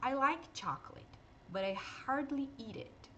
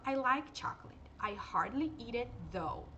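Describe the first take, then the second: First: Slow, careful English model sentence; English example sentence. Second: Slow, careful English with "though"; English example with though. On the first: Teacher models the sentence for Brazilian students, slow and clear. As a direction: read it out slowly as a model. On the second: Teacher repeats the sentence adding "though", slow and clear. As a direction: model "though" with a voiced th. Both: Shown as a demonstration. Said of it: "Aqui a gente fala".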